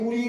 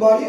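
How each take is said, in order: First: The vowel sounds like 'oo'. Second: The vowel sounds like 'ah'. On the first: The speaker calls it wrong. "অনেকে বুড়ি বা বড়ি বলে" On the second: The speaker calls it right. "উচ্চারণটা কিন্তু বাড়ি"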